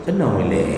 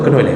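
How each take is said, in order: First: The name is called once, slowly, then silence. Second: The name is called rapidly, again and again. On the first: The caller waits for the person to come. The speaker calls it right. "manggilnya pelan-pelan ... diam kita" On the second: The caller rushes without waiting for anyone. The speaker calls it wrong. "Mana ada azan yang begitu?"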